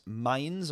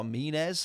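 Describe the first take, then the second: First: "Mines" as one syllable, like English mines; first pronunciation guess. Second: "Mines" in two syllables, MEE-nez; alternative pronunciation guess. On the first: Streamer guessing at a tuning company's name, "Mines" as one English syllable. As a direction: say "Mines" to rhyme with "lines". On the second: Streamer trying another reading of a tuning company's name, "Mines" as mee-nez. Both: Shown as a demonstration. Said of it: "however that is pronounced".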